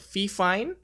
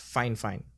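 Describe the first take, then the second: First: The name is not said as 'fine fine'. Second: The name is said as 'fine fine'. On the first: The speaker calls it wrong. "I've heard some people say it's called Fifine" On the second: The speaker calls it right. "apparently the company name is pronounced as Fine Fine"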